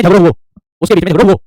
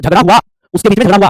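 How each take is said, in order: First: झगड़ो हुओ with both words ending in round "oh"; emphatic demo of झगड़ो हुओ, final ओ replacing आ; dialect ओ endings. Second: झगड़ा हुआ with both words ending in open "aa"; raised, emphatic demo of झगड़ा हुआ with long आ endings; standard आ endings. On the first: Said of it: "अब वो कहेंगे". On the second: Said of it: "हम कहते हैं". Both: Shown as a demonstration.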